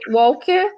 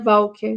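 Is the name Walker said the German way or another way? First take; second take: another way; German. First: The name is said without a German pronunciation. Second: The name is said with a German pronunciation. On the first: "às vezes a gente lê Walker" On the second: "a pronúncia alemã seria Walker"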